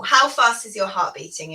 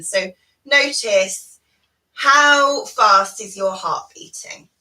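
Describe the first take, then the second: First: Said in the usual way. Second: Slow, drawn-out guiding question; slow body scan prompt. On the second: Shown as a demonstration. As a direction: ask it slowly, giving time to notice. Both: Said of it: "We're gonna do a little body scan".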